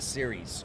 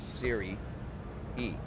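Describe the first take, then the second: First: It sounds like the English word 'series'. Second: It ends with a separate extra 'ee' syllable. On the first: The speaker calls it wrong. "not series" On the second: The speaker calls it right. "when you're selling it, it's Siri E"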